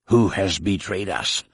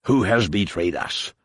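First: Hissed threat, lightly voiced; hissed in his ear. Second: Repeated hissed threat. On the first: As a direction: threaten him in a hiss from behind. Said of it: "hissed a voice in his ear". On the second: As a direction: press him once more, menacing. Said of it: "Shun Mai's attacker repeated". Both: A narrator's reading.

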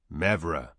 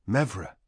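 First: Low, deep summoner's call; deep-voiced summoner. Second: Said in the usual way. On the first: A narrator's reading. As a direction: say the name in a deep, lowered voice. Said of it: "in his deep voice".

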